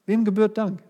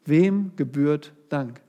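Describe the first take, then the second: First: "Wem gebührt Dank?" again, pitched higher with a punched "Wem"; raised repeat. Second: Slow, weighty "wem gebührt Dank?" with stress on "wem"; slow question. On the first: Preacher pressing the question on the congregation, higher and urgent. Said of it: "repeats the question". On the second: Preacher posing the first point to the congregation, slow and weighty. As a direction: lay out "wem gebührt Dank?" slowly, leaning on "wem". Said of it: "poses the question twice". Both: Shown as a demonstration.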